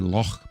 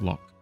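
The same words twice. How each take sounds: First: It ends with a harsh, raspy throat sound. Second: It ends with a hard, clipped k sound. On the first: The speaker calls it right. "It is actually Loch ... pronounced with the the the harsh throat noise" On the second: The speaker calls it wrong. "not Loch"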